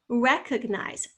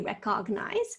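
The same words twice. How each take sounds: First: The second syllable has a weak 'ug' vowel. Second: The second syllable has a full 'og' vowel. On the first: The speaker calls it right. "I can hear that ug" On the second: The speaker calls it wrong. "That's not og. We don't say recognize"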